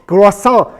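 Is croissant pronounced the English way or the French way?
French. The word is pronounced the French way. The speaker calls it right. "we speak French at home ... no, it's croissant"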